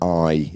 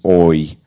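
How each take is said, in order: First: The vowel sounds like eye. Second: The vowel sounds like oy. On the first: "the vowel sound I" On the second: "It becomes oi"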